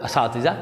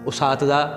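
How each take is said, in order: First: The word begins with an 'a' vowel. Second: The word begins with a 'u' vowel. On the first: The speaker calls it right. "असातिज़ा सही।" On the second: The speaker calls it wrong. "उसातिज़ा गलत"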